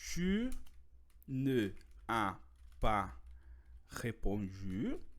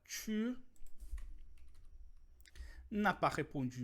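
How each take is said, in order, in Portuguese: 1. A vogal de ne é totalmente pronunciada. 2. A vogal de ne é omitida e ligada.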